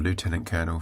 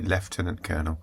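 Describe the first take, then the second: First: Lieutenant begins with a 'loo' sound. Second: Lieutenant begins with a 'left' sound.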